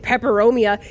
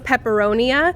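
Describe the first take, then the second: First: The word is said with an M sound. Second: The word is said with an N sound. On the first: The speaker calls it right. "He can see the M" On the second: The speaker calls it wrong. "he says pepperonia and it kills me"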